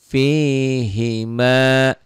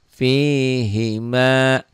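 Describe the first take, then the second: The two takes are said the same way.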